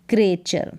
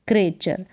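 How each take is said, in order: No difference in how they are said.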